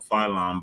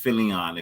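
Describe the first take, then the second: First: The name is said with two syllables. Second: The name is said with three syllables. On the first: This is how most people say it. The speaker calls it wrong. "Everybody calls him Phylon" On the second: This is the actual name. The speaker calls it right. "but it's Philion"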